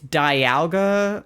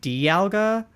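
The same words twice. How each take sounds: First: The first syllable sounds like 'die' in diamond. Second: The first syllable does not sound like 'die'. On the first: "in my head, it's Dialga, like Diamond" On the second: "people pronounce it Dialga"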